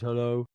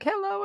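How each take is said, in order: First: It is said in a deep, low voice. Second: It is said in a high, boyish voice. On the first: The voice has suddenly dropped. "then one minute he goes hello" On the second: The voice has not yet broken. "one minute he's speaking a bit like hello"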